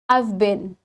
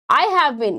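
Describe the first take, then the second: First: Have is shortened into the previous word. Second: The word have is said in full. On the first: "You can say it" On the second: "How you can pronounce this?"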